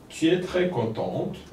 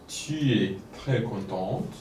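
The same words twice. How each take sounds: First: It is read at a normal speaking pace. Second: It is read a little more slowly.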